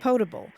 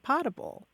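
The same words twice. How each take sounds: First: The first vowel is a long O sound. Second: The first vowel is a short O sound. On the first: The speaker calls it right. "have a long O in all of those words" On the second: The speaker calls it wrong. "a whole lot of people say potable"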